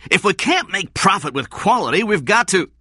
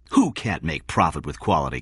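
First: High, loud, angry protest; heated and insistent. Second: Said in the usual way. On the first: A narrator's reading. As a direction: argue it angrily at a raised pitch. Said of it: "Blake said angrily". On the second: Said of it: "King asked".

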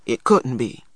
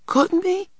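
First: Unconvincing. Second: Put-on very high, panicky child's echo; panicked. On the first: Older brother answers his worried sister, unconvincingly. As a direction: deny it without believing it. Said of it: "Stacy replied unconvincingly". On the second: Little boy doubts his brother's denial, in a panic. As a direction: question it in rising panic. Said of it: "cried Christopher John in a panic". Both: A narrator's reading.

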